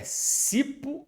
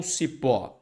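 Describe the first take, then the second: First: "cipo" with the stress pushed onto CI, the wrong option; stress on first syllable of cipo. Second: "cipó" with the stress on final PÓ; stress on last syllable of cipó. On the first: Teacher testing the class with a wrong option, "cipo" stressed on CI. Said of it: "É cipo ou cipó". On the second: Teacher offering students the right option, "cipó" stressed on PÓ. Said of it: "Sílaba tônica é a última". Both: Shown as a demonstration.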